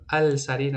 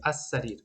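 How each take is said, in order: First: السریر with a clear l sound, al-sarir; wrong pronunciation with the l. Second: السریر with the l dropped, as-sarir; correct sun-letter pronunciation. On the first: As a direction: say السریر as al-sarir, l fully pronounced. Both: Shown as a demonstration.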